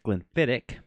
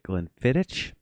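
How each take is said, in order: First: The name ends with a hard 'k' sound. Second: The name ends with a soft 'ch' sound. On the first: The speaker calls it right. "The the C and H in Gaelic is a hard C" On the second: The speaker calls it wrong. "I've heard people pronounce it Glenfiddich. I mean, that's kind of how it's spelled"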